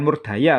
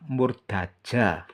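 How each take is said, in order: First: The third consonant is a 'y' sound. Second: The third consonant is a 'j' sound. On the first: The speaker calls it wrong. "bukan Murdaya loh ya" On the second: The speaker calls it right. "ja harus dibaca ja"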